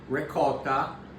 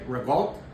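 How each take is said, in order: First: It is said in the standard pronunciation. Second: It is said in a New Jersey-Brooklyn pronunciation. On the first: The speaker calls it right. "that's how you say it" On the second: The speaker calls it wrong. "some people say revolt, which means you're from New Jersey or within twenty miles of Brooklyn"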